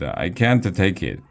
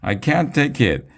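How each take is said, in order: First: Said in the usual way. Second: "I can't take it" wailed much higher, with a hammed-up cry; "I can't take it" pitched up like a mock tantrum; mock crying shout. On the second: A narrator's reading. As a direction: cry "I can't take it" in a high, near-tears wail. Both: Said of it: "Miss Jojo was crying and shouting".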